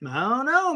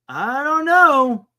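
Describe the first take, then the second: First: Said in the usual way. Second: Slow, stretched-out I don't know; drawn-out doubtful. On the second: Real, not acted. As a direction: draw it out, slowly puzzled. Unsure about Dodgers falling.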